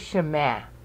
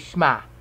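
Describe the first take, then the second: First: Both syllables are fully pronounced. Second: The first vowel is dropped into one syllable. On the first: This is the older pronunciation. "They don't say Shema today" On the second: This is how people say it today. "they've condensed 2 syllables in the 1 syllable"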